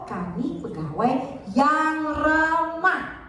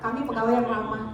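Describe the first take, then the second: First: The stress falls on yang ramah. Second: No word is given special stress. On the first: Being friendly is the key point. "artinya yang ramah" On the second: No particular point is highlighted. "nggak ada orang tahu"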